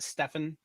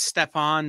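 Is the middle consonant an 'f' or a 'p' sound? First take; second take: f; p. First: The middle consonant is an 'f' sound. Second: The middle consonant is a 'p' sound. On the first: The speaker calls it wrong. "not Stefan" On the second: The speaker calls it right. "Same way it's Stepan"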